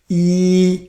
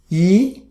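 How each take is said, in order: First: The pitch stays high and level. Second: The pitch rises from mid to high. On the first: "First tone, you practice yi" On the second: "The second tone"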